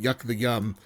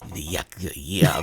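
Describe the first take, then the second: First: It is said in a normal voice. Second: It is said in a weird, wet voice.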